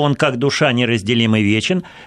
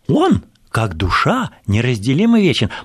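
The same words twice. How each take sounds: First: It is said in one unbroken phrase. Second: Pauses come before and after 'как душа'.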